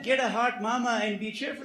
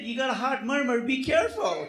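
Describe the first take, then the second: First: "hot mama" said loud and high, the misheard line; "Get a hot mama and be cheerful" as the old man heard it; punchline setup, loud and high; misheard version. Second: "hot murmur" said loud and high with a laugh, the real advice; "You got a hot murmur, be careful" laughing it out; correcting the mix-up, loud and laughing; intended version. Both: Shown as a demonstration. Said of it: "No, no, no, I said".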